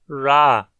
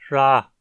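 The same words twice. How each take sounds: First: The consonant is voiced, with vibrating vocal folds. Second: The consonant is voiceless, with breathy air only.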